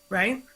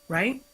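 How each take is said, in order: Both takes have the same delivery.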